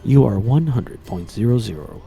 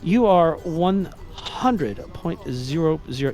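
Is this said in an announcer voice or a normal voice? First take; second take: announcer; normal. First: It is said in a put-on announcer voice. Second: It is said in the speaker's ordinary voice.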